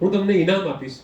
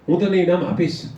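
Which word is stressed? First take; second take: ઇનામ; આપીશ. First: The stress falls on the third word. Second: The stress falls on the last word. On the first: It answers what will be given. "તમે મને શું આપશો" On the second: It answers whether the prize will be given. "તમે મને ઇનામ આપશો"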